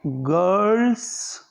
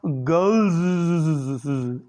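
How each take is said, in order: First: धीरे से "गर्ल्स" पढ़कर दिखाना; "गर्ल्स" खिंचा हुआ, शब्द के अंत में हल्की स की आवाज़; girls read out. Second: "गर्ल्स" बहुत धीरे, अंत में लंबी ज़ की हिसिंग ध्वनि; "गर्ल्स" के आख़िरी स को ज़ की तरह खींचकर सिसकारते हुए बोलें; girls' pronounced. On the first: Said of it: "जैसे मैं यहाँ पर लिख रहा हूँ आपको". ("गर्ल्स" को धीरे-धीरे बोलकर दिखाएँ) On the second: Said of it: "तो ये कैसे पढ़ेंगे हम". ("गर्ल्स" को अंत की ज़ की सिसकारती आवाज़ के साथ खींचकर बोलें) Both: Shown as a demonstration.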